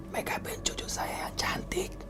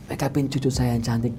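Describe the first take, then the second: First: Slow, drawn-out whisper; whispered ghostly request. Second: Said in the usual way. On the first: Retold or imitated. Possessed bride asks the makeup artist, slow eerie whisper. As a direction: whisper it slowly, like a possessing spirit.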